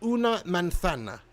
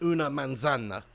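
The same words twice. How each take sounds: First: The z is said as a th sound. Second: The z is said as an s sound. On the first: "They say like th" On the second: "rather than"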